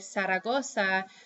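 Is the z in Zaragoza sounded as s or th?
s. The z letters are sounded as s. "they won't say Zaragoza"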